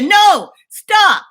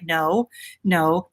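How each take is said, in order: First: It is shouted at full loudness. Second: It is said softly and gently.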